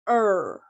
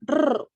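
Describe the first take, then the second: First: The r sound is smooth with no tongue contact. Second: The r sound is trilled with the tongue. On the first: The speaker calls it right. "but in English it's er" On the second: The speaker calls it wrong. "They tend to be pronounced like this"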